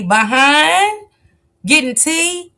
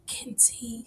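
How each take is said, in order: First: Teasing high question. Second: "Getting tea" breathed out in a soft whisper; whispered echo. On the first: Teasing question before whispered echo. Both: Pretend.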